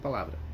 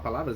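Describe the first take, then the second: First: The word is cut short without final s. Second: The word ends with a clear final s. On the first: The speaker calls it wrong. "Eu corto as palavras" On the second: The speaker calls it right. "em vez de falar palavras"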